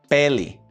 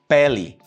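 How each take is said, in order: The two takes are said the same way.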